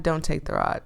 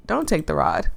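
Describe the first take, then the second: First: Dropped to a softer voice, hesitant; softer self-correction; quieter second thought. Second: Said in the usual way. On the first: Acted. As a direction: mutter the doubt under your breath. Dithering over taking the rod.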